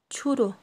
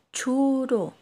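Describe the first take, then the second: First: Said in the usual way. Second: "churu" with lengthened syllables; model pronunciation. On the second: Shown as a demonstration. Teacher tells learners to say it, "churu" drawn out. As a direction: stretch out "churu" so learners can follow. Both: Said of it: "Ahora ustedes digan".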